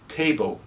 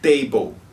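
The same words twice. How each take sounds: First: The t is released with a puff of air. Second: The t is closed, with no puff of air. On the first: The speaker calls it right. "É t table" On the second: The speaker calls it wrong. "Não é table, table, com um som fechado assim"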